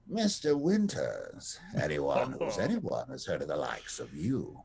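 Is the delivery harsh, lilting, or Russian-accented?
lilting. It is said in a softer, lilting accent.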